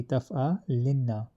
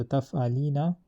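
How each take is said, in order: First: Taf'alinna with the nn doubled and held long; heavy noon emphasis. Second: Said in the usual way. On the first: Shown as a demonstration. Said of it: "heavy emphasis will be". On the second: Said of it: "is the original".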